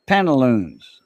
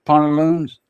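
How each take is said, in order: First: Pantaloons with a short "pant" first syllable; English pronunciation. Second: Pantaloons with "pont" as first syllable; French pronunciation. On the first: Caller showing how French speakers don't say it, English pronunciation of "pantaloons". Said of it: "we don't say it like that". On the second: Showing friends how it is said in French, French-style "pantaloons". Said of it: "that's how we say it in French". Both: Shown as a demonstration.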